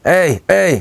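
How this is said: The voice is raspy and scratched.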